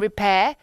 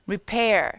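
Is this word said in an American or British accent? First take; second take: British; American. First: It is said in a British accent. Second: It is said in an American accent. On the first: "영국식 발음을 갈까?" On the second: "미국도 헷갈리고"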